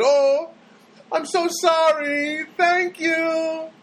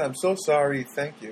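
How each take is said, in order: First: High, slow put-on customer service voice; phone girl's voice. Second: Said in the usual way. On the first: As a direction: mimic the polite phone clerk, up high.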